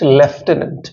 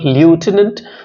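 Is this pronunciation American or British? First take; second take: British; American. First: It is said the British way. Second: It is said the American way. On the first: "whereas the English pronounce it lieutenant" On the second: "Americans pronounce this word lieutenant"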